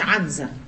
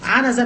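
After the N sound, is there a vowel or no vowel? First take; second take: no vowel; vowel. First: The n has no vowel after it. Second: The n is followed by a short a vowel. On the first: The speaker calls it wrong. "مش بالسكون" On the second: The speaker calls it right. "عنزه بالفتح"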